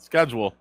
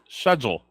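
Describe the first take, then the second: First: The word begins with an 'sk' sound. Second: The word begins with an 'sh' sound. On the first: "not schedule" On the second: "Michelle says sh- schedule"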